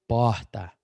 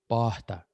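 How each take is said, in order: No difference in how they are said.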